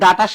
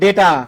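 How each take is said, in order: First: The first vowel sounds like 'ah'. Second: The first vowel sounds like 'ay'. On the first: The speaker calls it wrong. "ডাটা বলতে ডাটা শাক বোঝায়" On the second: The speaker calls it right. "এটার উচ্চারণটা হবে ডেটা"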